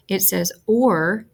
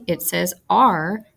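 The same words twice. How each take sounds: First: Or said slowly as a full or; vowel R sound. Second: R drawn out slowly as a clear ar; vowel R sound. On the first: Teacher modelling the or sound for young readers, slow and clear. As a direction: stretch or out clearly, like in fork. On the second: Teacher modelling the ar sound for young readers, slow and clear. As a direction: say R slowly as ar, like in arm. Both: Shown as a demonstration.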